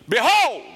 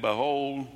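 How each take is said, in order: First: It is shouted as an exclamation. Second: It is said flatly, like ordinary reading.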